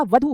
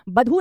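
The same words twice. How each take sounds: First: वधू said with a clear v; correct v sound. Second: बधू said with a plain b; teacher shows बधू with a hard b, not v; wrong b sound. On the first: शिक्षिका कक्षा को सही वधू सुनाती है, साफ़ व के साथ. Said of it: "वधू होता है". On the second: शिक्षिका कक्षा को ग़लत बधू दिखाती है, साफ़ ब के साथ. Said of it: "बधू नहीं होता". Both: Shown as a demonstration.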